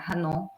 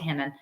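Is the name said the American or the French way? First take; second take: French; American. First: The name is said with French pronunciation. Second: The name is said with American pronunciation. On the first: "the French" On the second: "in American English we just say Hanon"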